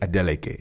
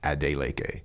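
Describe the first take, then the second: First: The name is said the Nigerian way. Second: The name is said the American way.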